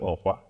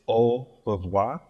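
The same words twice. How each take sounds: First: It is said quickly with the parts run together. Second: It is said slowly with each part clear. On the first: "they say it kind of fast, so it just sounds like au revoir" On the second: "so it is au revoir"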